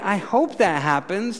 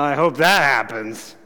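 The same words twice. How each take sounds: First: It is said in a plain, sincere tone. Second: It is said in a doubtful, skeptical tone. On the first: The speaker expects it may happen. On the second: The speaker does not expect it to happen.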